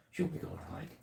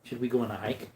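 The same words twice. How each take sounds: First: High, hushed whisper teasing the dog; soft whisper to an eager puppy; excited whisper to dog. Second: Said in the usual way. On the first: Real, not acted. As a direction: whisper it like a secret treat.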